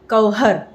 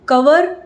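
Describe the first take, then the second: First: The v is followed by an h sound. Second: The v is plain, with no h sound. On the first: The speaker calls it wrong. "ना कि कवहर" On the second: The speaker calls it right.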